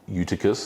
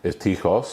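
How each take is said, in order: First: The name is said with an English pronunciation. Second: The name is said with a non-English pronunciation.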